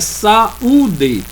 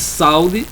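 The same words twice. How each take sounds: First: The stress is on the second syllable. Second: The stress is on the first syllable. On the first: The speaker calls it right. "Mas como é saúde, então sa, aí está a vogal. U vai ficar sozinho também" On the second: The speaker calls it wrong. "o A sendo forte, então é, só teria duas sílabas"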